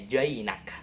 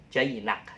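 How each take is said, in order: No difference in how they are said.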